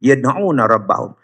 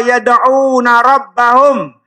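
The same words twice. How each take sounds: First: Said in the usual way. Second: Higher and drawn out, recited slowly; slow recited verse. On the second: Shown as a demonstration. (ayat dibaca perlahan, panjang dan tinggi)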